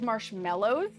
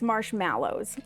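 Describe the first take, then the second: First: The middle syllable has an 'e' vowel, 'mel'. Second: The middle syllable has an 'a' vowel, 'mal'. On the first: The speaker calls it wrong. "before anybody says it's marshmallows" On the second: The speaker calls it right. "that is an A, okay? It's marshmallows"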